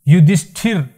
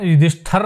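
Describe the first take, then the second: First: The final syllable is pronounced 'thir'. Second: The final syllable is pronounced 'thar'. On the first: The speaker calls it right. "शुद्ध उच्चारण भी देख लो" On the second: The speaker calls it wrong. "युधिष्ठर नहीं बोलते हैं"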